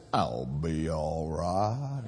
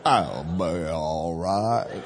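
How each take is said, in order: First: Slow, low southern drawl, laughing. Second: Slow, low southern drawl with a laugh. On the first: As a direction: drag it out like a southern guy at the bar. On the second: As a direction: try the southern guy again, lazily. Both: Retold or imitated. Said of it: "Can't even do it in a northern accent".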